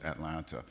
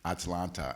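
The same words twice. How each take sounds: First: The name is said in the familiar way. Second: The name is said in a foreign-sounding way.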